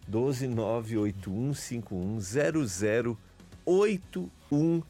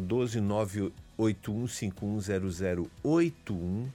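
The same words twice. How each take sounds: First: The number is said slowly. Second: The number is said fast.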